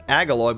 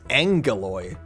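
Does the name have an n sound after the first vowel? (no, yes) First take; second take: no; yes. First: The name has no n sound after the first vowel. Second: The name has an n sound after the first vowel. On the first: "I would pronounce it as Agaloy" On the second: "Like there's an N there"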